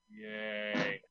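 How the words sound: It sounds bored and flat.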